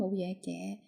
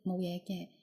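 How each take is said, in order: First: The final particle is in the second tone. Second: The final particle is not in the second tone. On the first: The speaker is not fully sure and only hopes it will be okay. "the tone word become the second tone" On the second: The speaker is quite sure it will be okay. "it shows the positive meaning"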